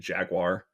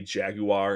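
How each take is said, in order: First: It is said with an American accent. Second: It is said with a British accent. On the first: "we say" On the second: "they say"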